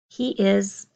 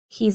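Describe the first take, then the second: First: The two words are said fully and separately. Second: The two words merge into one contracted syllable. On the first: "He is, combining to my contraction" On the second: "combining to my contraction"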